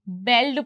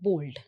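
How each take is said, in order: First: The vowel sounds like 'eh'. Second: The vowel sounds like 'oh'. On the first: The speaker calls it wrong. "इसकी जो spelling है उसे हम बेल्ड पढ़ना चाहेंगे" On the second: The speaker calls it right. "पर actually इसकी pronunciation होती है बोल्ड"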